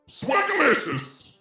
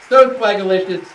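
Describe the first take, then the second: First: It is said in a put-on character voice. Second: It is said in his natural voice.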